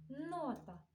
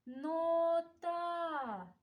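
First: Said in the usual way. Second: "Нота" stretched out, final а held long; higher, long-held vowels in "Нота"; sound-analysis demo. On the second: Shown as a demonstration. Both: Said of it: "звуковий аналіз".

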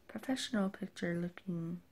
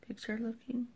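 First: Said in the usual way. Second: Unsure whisper to herself. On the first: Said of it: "picture looking? I don't know". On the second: Real, not acted. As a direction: breathe the words out, doubtful. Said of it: "I don't know".

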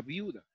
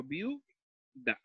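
First: Said in the usual way. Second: "viuda" slowly broken as viu-da; split into syllables. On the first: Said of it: "Cuando separo". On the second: Shown as a demonstration. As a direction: say "viuda" as VIU, long pause, DA. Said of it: "en una sola sílaba las dos vocales".

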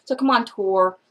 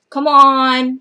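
First: Said in the usual way. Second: Scolding, louder on the repeat; louder come on. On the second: Shown as a demonstration. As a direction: push the second come on harder. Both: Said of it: "mock scolding the publisher".

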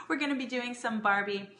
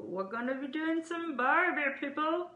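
First: Said in the usual way. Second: Playful mock Australian accent, much higher; mock Aussie accent. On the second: Host joking about barbecue with Adam, mock Australian accent. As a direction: ham up an Aussie twang on Barbie. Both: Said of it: "I don't know what kind of accent that is".

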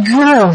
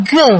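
First: Gơ with a burst of breath; gơ released as g plus h; aspirated throat consonant. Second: Gơ without a puff of air; plain unaspirated gơ from the throat; throat consonant. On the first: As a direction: puff air out after the g in gơ. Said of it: "bật hơi ra". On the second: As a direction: say gơ cleanly, no breath after g. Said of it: "Quý vị đọc âm cổ họng ha". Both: Shown as a demonstration.

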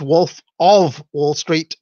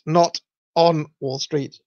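First: Wolf of Wall Street, slow, OF stressed. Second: "not on" hit hard, slow; stress on NOT ON. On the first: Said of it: "people saying it's". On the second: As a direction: stress "not on" in the correction slowly. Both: Retold or imitated.

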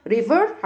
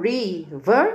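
First: Said in the usual way. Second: "river" broken into ri, then ver; split into syllables. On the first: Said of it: "river عشان مقسماها". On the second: Shown as a demonstration. Teacher reviews river with pupils, split in syllables. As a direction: say "river" in two separate beats. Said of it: "عشان مقسماها river".

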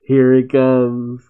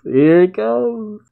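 First: Slow, drawn-out anticipation; slow build-up. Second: Higher, slow and thrilled; excited anticipation. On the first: Reacting to the manga reveal, slow and expectant. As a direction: savour it slowly, waiting for the blow. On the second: Reacting to the manga reveal, rising slow excitement. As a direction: let it climb as the moment arrives. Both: Real, not acted.

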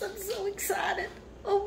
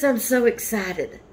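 First: Hushed excitement. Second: Said in the usual way. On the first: Real, not acted. Same gift, overcome.

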